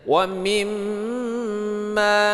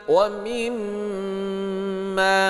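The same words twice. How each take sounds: Both takes have the same delivery.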